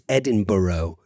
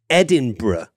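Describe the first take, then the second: First: It is pronounced the American way. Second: It is pronounced the local British way. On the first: The speaker calls it wrong. "as a lot of people in the United States say" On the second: The speaker calls it right. "it's important to pronounce this city Edinburgh"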